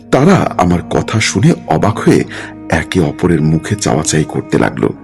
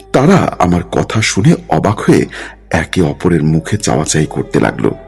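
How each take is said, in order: The two takes are said the same way.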